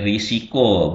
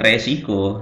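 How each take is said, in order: First: The first vowel is an i sound. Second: The first vowel is an e sound. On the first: The speaker calls it right. "Kemudian risiko" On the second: The speaker calls it wrong. "bukan resiko"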